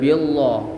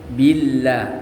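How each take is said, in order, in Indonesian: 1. L dibaca tebal dan penuh. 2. L dibaca tipis dan ringan. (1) "tidak boleh" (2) "tipis atau tarkik"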